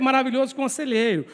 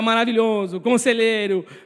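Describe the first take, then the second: First: The two words run together without a pause. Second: There is a pause between the two words. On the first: Wonderful describes the counselor as one title. The speaker calls it right. "mas o certo é" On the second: Wonderful and counselor are two separate titles. The speaker calls it wrong. "a gente sempre fala assim"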